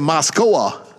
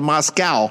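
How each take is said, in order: First: The name gets a Japanese-style pronunciation. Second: The name gets an American-style pronunciation. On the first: "In Japan, we don't say Moscow, we say Moscow" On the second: "people in the USA sometimes turn it into Moscow"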